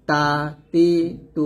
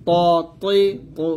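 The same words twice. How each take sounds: First: তা তি তু with a light, thin t on each; thin pronunciation. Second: ত তৈ তু with a heavy, rounded t on each; thick pronunciation. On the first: Teacher drilling three short vowels, তা তি তু said thin. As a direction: say তা তি তু thin, one by one. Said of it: "পাতলা করে উচ্চারণ করতে হবে". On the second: Teacher drilling three short vowels, ত তৈ তু said thick. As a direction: say ত তৈ তু thick, one by one. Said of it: "মোটা করে, আর এটা". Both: Shown as a demonstration.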